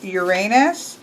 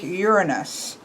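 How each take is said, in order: First: The name has an English-style pronunciation. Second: The name has a Greek-style pronunciation. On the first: "Anglicized, or I should say Kellyized" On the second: "if you're trying to say it correctly in Greek"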